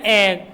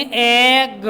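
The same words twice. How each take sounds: First: Said in the usual way. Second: एग with long vowel, one separate ग; sounded out. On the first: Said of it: "क्या बोलना है?". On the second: Shown as a demonstration. Teacher explaining double g sounds once, एग slowly segmented. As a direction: hold the vowel of एग, then a single "guh". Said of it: "सीधा एक ही बार बोलेंगे".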